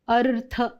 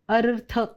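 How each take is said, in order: First: The r sound is clearly pronounced in the word. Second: The same.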